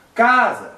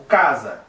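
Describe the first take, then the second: First: Higher, drawn-out first syllable of "casa"; calling out. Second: Said in the usual way. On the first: Shown as a demonstration. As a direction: call "casa" as if summoning it, CA strong. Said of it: "grita como se tivesse chamando essa". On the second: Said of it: "a sílaba mais forte é K".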